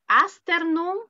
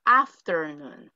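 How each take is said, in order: First: "Afternoon" said with S for F, aster-noon; wrong option. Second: "afternoon" with a clear F, questioning; right option. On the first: Teacher offers class a choice, "Afternoon" as aster-noon. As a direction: swap the F in "Afternoon" for an S. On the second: Teacher offers class a choice, "afternoon" with a proper F. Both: Shown as a demonstration. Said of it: "¿cómo se pronuncia aquí?".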